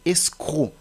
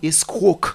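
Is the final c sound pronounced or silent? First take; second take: silent; pronounced. First: The final k sound is silent. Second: The final k sound is pronounced. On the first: The speaker calls it right. "La lettre C est muette" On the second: The speaker calls it wrong. "vous n'allez pas dire escroc"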